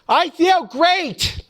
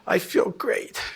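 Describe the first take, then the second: First: It is said loudly with lively energy. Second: It is said weakly with little energy. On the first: The speaker truly means it. "say this like you mean it" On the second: The speaker is too old and tired to mean it. "everyone's ninety-nine years old and they'll go"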